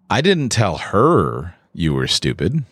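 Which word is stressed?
her. The stress is on her.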